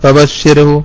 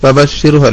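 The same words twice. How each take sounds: No difference in how they are said.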